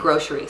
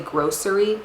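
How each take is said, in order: First: The word is pronounced the casual, everyday way. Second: The word is pronounced the careful, standard way. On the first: "but I say grocery" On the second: "that's like the proper way to say it"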